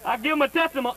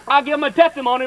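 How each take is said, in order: First: Said in the usual way. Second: "I give him a testimony" tumbling out fast; rushed testimony. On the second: Shown as a demonstration. Telling the congregation his first testimony, rushed out. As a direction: blurt it all at once like a happy new believer. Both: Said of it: "in a rush like that".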